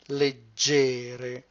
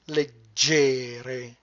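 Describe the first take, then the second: First: The stress is on the second syllable. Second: The stress is on the second syllable.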